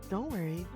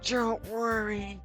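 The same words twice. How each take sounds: First: It is said without Yuri's character voice. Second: It is said in a put-on voice for Yuri.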